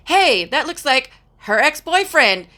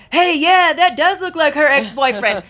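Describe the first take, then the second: First: Higher-pitched retold call-out; daughter's exclamation. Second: High, loud imitated call-out; husband's loud exclamation. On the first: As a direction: imitate a daughter piping up with a joke. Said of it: "my daughter was like". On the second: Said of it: "he was like".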